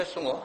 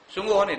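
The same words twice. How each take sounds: First: Said in the usual way. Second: Doubting question. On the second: Retold or imitated. Ustaz doubts old man's claim.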